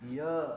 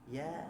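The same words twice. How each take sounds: First: The syllable is said heavy and thick. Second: The syllable is said light and thin. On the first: The speaker calls it wrong. "jangan ditebalkan ... Jangan gitu ya" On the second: The speaker calls it right. "Ya aja"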